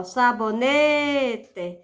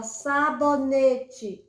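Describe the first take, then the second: First: "sabonete" with a very long "ne"; stress on penultimate syllable. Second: "sabonete" slowly, split into sa-bo-ne-te; syllable by syllable. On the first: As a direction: stretch the "ne" in "sabonete". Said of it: "é a penúltima". ("sabonete" alongando bastante o "ne") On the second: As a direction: sound out every syllable of "sabonete". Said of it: "separar em sílabas". ("sabonete" devagar, sílaba por sílaba) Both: Shown as a demonstration.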